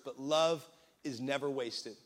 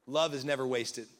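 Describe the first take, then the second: First: Slow, stress "love" and "never wasted"; slow emphatic repeat. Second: Said in the usual way. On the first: Shown as a demonstration. Pastor repeating his point to the church, slow and weighty. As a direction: drive home "love is never wasted" slowly.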